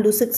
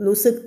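The two takes are said the same way.

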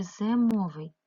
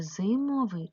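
First: "зимовий" with the first vowel said as "е"; Y turned to E. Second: "зимовий" with "и" in the first syllable; clear Y vowel. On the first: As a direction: sound out "зимовий" as ze-mo-vyi. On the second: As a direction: sound out "зимовий" as zy-mo-vyi. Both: Shown as a demonstration. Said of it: "як писати".

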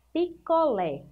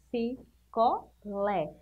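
First: Said in the usual way. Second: Slow, syllable by syllable. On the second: Shown as a demonstration.

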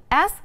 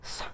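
First: S said as "es", vowel first; name the letter S, starting on a vowel. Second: S as a bare "sss" with no vowel; S sounded alone, not named as a letter; consonant sound S. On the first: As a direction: open S with a vowel sound, "es". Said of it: "nó là một nguyên âm". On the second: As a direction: make S a pure voiceless consonant. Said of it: "được phát âm là một phụ âm". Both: Shown as a demonstration.

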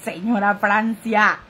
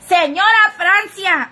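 First: Said in the usual way. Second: Higher, louder, slow call of the name. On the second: Real, not acted. Streamer calling out to a commenter, loud slow hail. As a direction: call her name loudly across the room.

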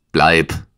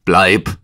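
First: Kurzer, lauter Ausruf; gerufen. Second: Lauter, nachdrücklicher Befehl; gebieterischer Ruf. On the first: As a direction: ein knapper Zuruf, mit etwas Nachdruck. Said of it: "rief er". (kurz und laut gerufen) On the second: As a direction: kurz und laut befehlen, keinen Widerspruch dulden. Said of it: "rief er gebieterischer". (gebieterisch gerufen) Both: A narrator's reading.

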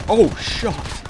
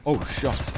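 First: Oh shucks, pitched up and loud; loud high oh shucks. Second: Said in the usual way. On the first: Real, not acted. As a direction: yelp the oh shucks. Catchphrase louder, higher.

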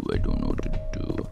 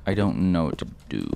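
First: Deep mock voice. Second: Said in the usual way. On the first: Shown as a demonstration.

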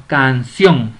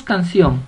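First: "canción" low and deliberate, CIÓN pushed louder; stress on CIÓN. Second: Said in the usual way. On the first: Shown as a demonstration. Teacher giving an example, "canción" stressed on CIÓN. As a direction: lean hard on the CIÓN in "canción". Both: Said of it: "La mayor fuerza de voz la lleva en ción".

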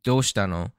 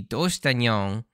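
First: Said in the usual way. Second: Final "no" of "Doushita" turned into "nyong"; "nyong" as a catlike ny- sound replacing "no"; verbal quirk "nyong". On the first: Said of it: "Normally in, in Japanese". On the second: Shown as a demonstration. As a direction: end "Doushita nyong" on a nasal "nyong" for "no". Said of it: "her version would be".

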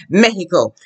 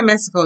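First: "Mexico" with a breathy H for the X; Spanish pronunciation. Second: "Mexico" with an English KS in the middle; English pronunciation. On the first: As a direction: say "Mexico" as MEH-hee-ko. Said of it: "in Spanish, you should say what?". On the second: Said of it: "you be speaking someone in English". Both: Shown as a demonstration.

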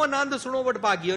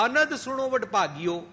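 First: ਆਨੰਦ with a long first vowel, aa-nand; wrong way: stretch ਆਨੰਦ into aa-nand; ਆਨੰਦ opening on a long aa; long aa aanand. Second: ਅਨੰਦ with a short first vowel, a-nand; ਅਨੰਦ with short opening a, stress on it; short a anand. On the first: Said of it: "ਨਹੀਂ ਕਹਿੰਦੇ ਨੇ।". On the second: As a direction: say ਅਨੰਦ short, not ਆਨੰਦ. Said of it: "ਉੱਥੇ ਅਨੰਦ ਹੈ।". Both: Shown as a demonstration.

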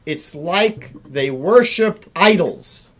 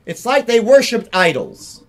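First: Said in the usual way. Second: "like" raised and louder, hammered home; emphatic repeat. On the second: Shown as a demonstration. Rabbi drives home the Talmud teaching, "like" stressed higher and louder. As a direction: hit "like" hard on the repeat. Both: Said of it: "repeated for emphasis".

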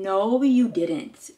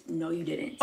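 First: Slow, drawn-out disbelief. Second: Very soft, lower disbelief; hushed disbelief. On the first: Vlogger to generous friend, drawn-out disbelief. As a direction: stretch each word, astonished at the gift. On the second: Vlogger to generous friend, hushed disbelief. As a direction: drop it right down, almost to yourself. Repeats disbelief under breath. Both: Real, not acted.

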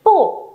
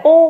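First: "Pu" starting high and falling sharply; crisp falling tone on "Pu"; decisive fourth tone. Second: "pu" said loosely, without a sharp fall; undecisive pu. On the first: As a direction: drop "Pu" firmly from the top. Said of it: "đọc dứt khoát lên cho cô nhá". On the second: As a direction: say "pu" casually, tone not driven down. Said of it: "không phải là pu mà là gì". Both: Shown as a demonstration.

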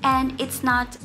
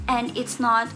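No difference in how they are said.

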